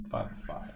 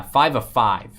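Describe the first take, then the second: First: "Five of five" breathed out with no voice; whisper. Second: Said in the usual way. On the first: Shown as a demonstration. Card breaker repeats the serial number in a whisper.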